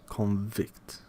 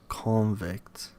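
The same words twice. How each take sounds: Both takes have the same delivery.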